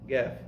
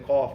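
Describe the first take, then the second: First: The word begins with a hard g sound. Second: The word begins with a deep q sound. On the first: "they say gef gef" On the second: "they don't say cough"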